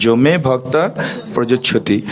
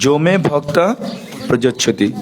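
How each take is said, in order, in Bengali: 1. প্রথম শব্দটি 'j' ধ্বনি দিয়ে শুরু হয়েছে। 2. প্রথম শব্দটি 'j' ধ্বনি দিয়ে শুরু হয়েছে।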